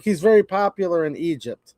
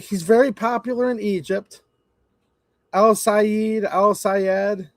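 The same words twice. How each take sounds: First: Said in the usual way. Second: Higher, sneering echo of "very popular"; mocking repeat. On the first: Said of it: "They're like". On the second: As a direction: mimic them with open scorn. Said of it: "I'm like".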